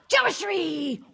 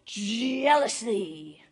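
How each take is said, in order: First: It is said in a put-on ninja voice. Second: The put-on ninja voice slips and sounds plain. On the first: The speaker calls it right. "Guess I could drop the ninja voice now" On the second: The speaker calls it wrong. "I totally ruined that accent"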